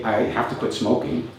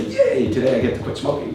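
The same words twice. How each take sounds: First: Reluctant obligation, said as a chore; dutiful have-to. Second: "Yay" shot way up, then the rest rattled off fast; mock cheer. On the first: Retold or imitated. Speaker imitating an unmotivated smoker, dutiful and reluctant. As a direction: sound like it's a burden you can't escape. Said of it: "For example, to say". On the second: Speaker mocking a smoker cheering about quitting, fake excited. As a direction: ironic fake enthusiasm, hammed up. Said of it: "uh, say".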